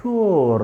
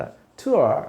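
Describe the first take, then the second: First: టూర్ with the final R sounded; American final R. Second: టూర్ ending in an open "uh", R silent; silent final R. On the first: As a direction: say టూర్ American-style, holding a clear R at the end. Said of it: "American వాడు పలుకుతాడు". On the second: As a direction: say టూర్ British-style as "too-uh", no final R. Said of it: "final ఆర్ ఇంగ్లీష్లో పలకదు". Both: Shown as a demonstration.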